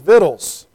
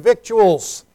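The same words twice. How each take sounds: First: The word is reduced, sounding like vittles. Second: The word is said with every vowel pronounced. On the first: "The good southern pronunciation for that word is victuals" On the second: "I'm trying very hard to enunciate and put all the vowels in there"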